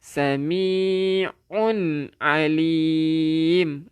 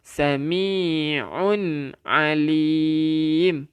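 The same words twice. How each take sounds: First: Sami'un alim recited with a clear un; teacher reciting for students; Quranic recitation of sami'un alim. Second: Sami'un alim stretched very slowly, nun clear; very slow demo of Sami'un alim. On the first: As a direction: recite sami'un alim and keep the nun sound. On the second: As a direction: drag out Sami'un alim with a falling end. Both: Shown as a demonstration. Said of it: "dia tak jadi sami'u".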